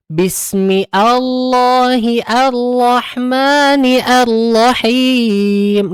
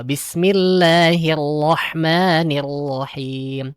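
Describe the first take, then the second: First: Slow, high, every hamzah pronounced separately as "Bismi Allahi Ar-Rahmani Ar-Rahim"; wrong reading. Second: Slow melodic recitation, "Bismillahirrahmanirrahim" run together with hamzah wasol silent; correct joined reading. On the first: Teacher mimics a mistaken imam, slow drawn-out wrong recitation. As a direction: chant "Bismi Allahi" word by word, breaking the connecting hamzah. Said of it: "imam yang dia bacanya kayak gini". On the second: Teacher shows the correct connected reading, slow recitation. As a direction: recite it slowly as one flowing phrase.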